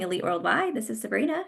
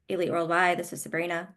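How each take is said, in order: First: The voice sounds upbeat and smiling. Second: The voice sounds flat and unsmiling. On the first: The speaker calls it right. "They're going to hear that you're upbeat" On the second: The speaker calls it wrong. "you're not smiling"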